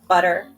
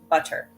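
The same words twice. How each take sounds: First: The middle consonant sounds like a soft D. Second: The middle consonant is a clear, crisp T. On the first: "In American English, ... that t sound sounds more like a D" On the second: "in British English, you're more likely to pronounce both T's"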